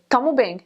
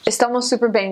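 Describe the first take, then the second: First: "Tamo bem" with the first syllable cut off, said quickly and casually; clipped local form. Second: "Estamos super bem" with every syllable said fully; full careful Portuguese. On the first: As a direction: swallow the start: "Tamo bem". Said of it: "they would say". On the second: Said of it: "instead of saying". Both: Shown as a demonstration.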